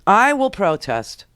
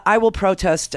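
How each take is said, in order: First: "I will protest" drawn out slowly, word by word; slow, emphatic weight on "I will protest"; mock solemn vow. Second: Said in the usual way.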